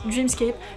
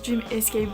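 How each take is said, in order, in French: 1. C'est prononcé en deux syllabes, "dream-scape". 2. C'est prononcé en trois syllabes, "dream-es-cape". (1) "ça se prononce Dreamscape" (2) "l'autre se prononce Dream Escape"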